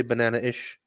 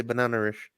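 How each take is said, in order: First: BANANA-ISH split by a catch, no R; glottal stop. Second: BANANA-ISH with an R linking into ISH; intrusive R. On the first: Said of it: "We'd say". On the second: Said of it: "They would say". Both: Shown as a demonstration.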